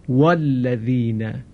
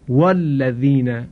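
First: The glottal stop before alladhina is dropped. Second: The glottal stop before alladhina is dropped.

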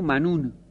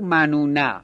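First: The final n has no vowel after it. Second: The final n is followed by an a vowel. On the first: The speaker calls it right. "بگو منون" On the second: The speaker calls it wrong. "شما نگو منونه"

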